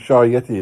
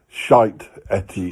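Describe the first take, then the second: First: The t sound opens the second word. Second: The t sound closes the first word. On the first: It is the intended name. "not if you say Shy Yeti" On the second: It sounds like a rude word. "only if you say it like that"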